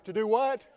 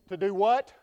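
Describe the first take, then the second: First: Prompting again, raised and rising; preacher repeating the prompt louder; louder call to the congregation. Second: Prompting the crowd, raised and rising; preacher coaxing a louder response; louder call to the congregation. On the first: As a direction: push the crowd to shout it back. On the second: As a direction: call it out to get them answering. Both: Real, not acted. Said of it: "Y'all gonna have to say it a little louder".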